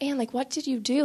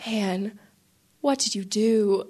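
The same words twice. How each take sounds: First: Higher, mildly puzzled imitation of the priest; not really mad. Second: Understated, grave imitation of a displeased priest; retold reproach. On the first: Priest asks his helper, puzzled but not really mad. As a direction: ask it as a gentle, bewildered reproach. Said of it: "it wasn't that he was really mad". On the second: Priest turns to his helper, mildly reproachful. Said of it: "Father Mike is mad at me".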